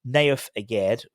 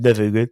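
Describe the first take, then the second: First: The name is said as two clear words. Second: The name is run together as one word. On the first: The speaker calls it right. "which is how his name is pronounced" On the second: The speaker calls it wrong. "someone criticised when I said Nevugu"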